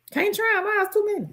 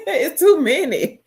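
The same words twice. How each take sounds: First: High-pitched. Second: Louder, laughing through it. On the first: Playful exasperation at the question. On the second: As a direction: laugh as you repeat it. Repeats it laughing. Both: Real, not acted.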